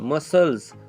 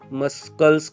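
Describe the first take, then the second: First: The word is said without a k sound. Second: The word is said with a k sound. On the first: The speaker calls it right. "यहाँ पे सी का pronunciation ही नहीं हुआ।" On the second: The speaker calls it wrong. "ऐसे कुछ तो भी आप बोलोगे, लेकिन नहीं"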